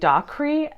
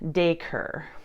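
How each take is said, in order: First: The name is said a guessed way. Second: The name is said the standard way. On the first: The speaker calls it wrong. "in my head, I was saying Dacre" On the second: The speaker calls it right. "the pronunciation was Daker"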